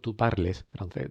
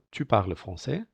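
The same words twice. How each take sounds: First: PARLES read Spanish-style as "par-les"; every letter of "parles" pronounced; wrong sounded ES. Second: TU PARLES FRANÇAIS, "parles" as "parl"; correct French silent ending. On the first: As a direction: say "parles" with both e and s voiced. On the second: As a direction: drop the es of "parles". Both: Shown as a demonstration. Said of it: "no decimos".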